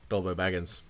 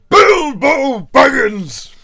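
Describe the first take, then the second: First: It is said in his normal speaking voice. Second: It is said in a booming Gandalf voice.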